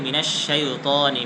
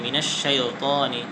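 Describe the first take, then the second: The two takes are said the same way.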